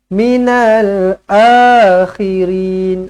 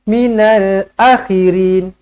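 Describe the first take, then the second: First: The first vowel of the second word is long. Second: The first vowel of the second word is short. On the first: The speaker calls it right. "kena baca dengan panjangnya dua harakat" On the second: The speaker calls it wrong. "bukan ... salahlah"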